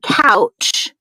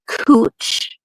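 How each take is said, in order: First: The vowel is said like 'ow'. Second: The vowel is said like 'oo'. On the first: "It's spelled couch" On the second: "but it is pronounced Cooch"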